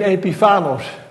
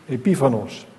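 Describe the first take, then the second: First: The stress is not on the 'pi' syllable. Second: The stress is on the 'pi' syllable. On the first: The speaker calls it wrong. "Ik leg de klemtoon verkeerd" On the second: The speaker calls it right. "de klemtoon ligt op de I"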